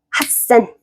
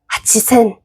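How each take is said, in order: First: A doubled 's' consonant replaces the 'chi' syllable. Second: A full 'chi' syllable comes before 'sen'. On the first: The speaker calls it right. "가치센보단 핫센이 편한 거예요" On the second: The speaker calls it wrong. "치읓 발음이랑 시옷 발음을 같이 발음하잖아요. 세게. 그러면 힘들어요"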